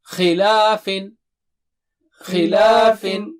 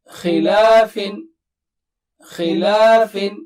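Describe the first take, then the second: No difference in how they are said.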